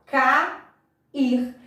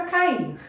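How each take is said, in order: First: Cair drawn out as two syllables, ca-ir; teacher separating Cair as ca-ir, stretched out; split into syllables. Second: Said in the usual way. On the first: Shown as a demonstration. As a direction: say Cair slowly with a break between ca and ir. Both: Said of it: "Como que eu separo?".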